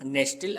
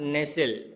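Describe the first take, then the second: First: The t sound is pronounced. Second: The t sound is silent. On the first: The speaker calls it wrong. "నెస్టిల్ అనకూడదు దాన్ని" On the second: The speaker calls it right. "టీ అనేది silent లెటర్లో పలకడం వల్ల నెసిల్ అంటాం"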